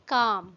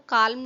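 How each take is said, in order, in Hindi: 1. इस शब्द में L की आवाज़ छोड़ दी जाती है। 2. इस शब्द में L की आवाज़ बोली जाती है। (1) "ये है काम" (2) "हम इसको काल्म नहीं पढ़ते हैं"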